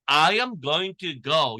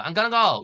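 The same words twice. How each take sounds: First: "I am going to go" word by word, slow; schoolbook careful form. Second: "I'm gonna go" run together, higher-pitched; casual reduced form. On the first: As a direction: sound "going to" in full. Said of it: "여러분이 학교에서 배운 이걸". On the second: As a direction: say "gonna" as one linked word. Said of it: "이렇게 하면". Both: Shown as a demonstration.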